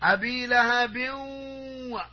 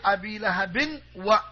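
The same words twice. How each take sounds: First: The n sound merges into the following w. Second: The n sound is pronounced clearly before wa. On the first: The speaker calls it right. "Idgham is to put one letter into the other in the sound" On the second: The speaker calls it wrong. "You don't bring the tanween clear. You don't say Abi lahabin wa. No"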